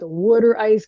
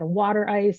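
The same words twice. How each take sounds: First: It is said in a Philadelphia accent. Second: It is said in a standard, non-Philadelphia accent.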